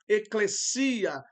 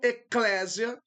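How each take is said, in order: First: The stress falls on the 'si' syllable. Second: The stress falls on the 'le' syllable. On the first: The speaker calls it right. "o acento recai sobre o iota" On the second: The speaker calls it wrong. "o acento não está no épsilon"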